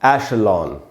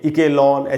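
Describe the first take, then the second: First: The word begins with an 'esh' sound. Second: The word begins with an 'ek' sound. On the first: The speaker calls it right. "एशलॉन इस प्रकार से पढ़ना है" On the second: The speaker calls it wrong. "इके लॉन ऐसे करके कोई पढ़ लेते हैं हम लोग"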